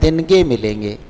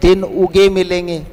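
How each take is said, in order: First: Din and uge merge into one word, dinge. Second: Din and uge are said as separate words. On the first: This is the everyday colloquial form. "इसको लोग सामान्य बोलचाल में क्या बोल देते हैं" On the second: This is the standard form. "बोलना तो ये चाहिए दिन उगे मिलेंगे, ये सही है"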